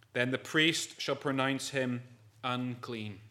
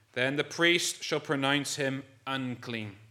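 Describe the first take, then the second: The two takes are said the same way.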